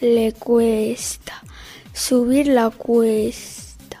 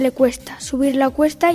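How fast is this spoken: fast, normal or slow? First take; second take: slow; normal. First: It is spoken at a slow pace. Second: It is spoken at a normal pace. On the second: "A velocidad normal"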